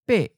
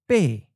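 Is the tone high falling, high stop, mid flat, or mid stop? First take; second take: high stop; high falling. First: The syllable is high and cut short. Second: The syllable falls from a high pitch. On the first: "high stop" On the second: "the eighth tone is often of a high falling tone"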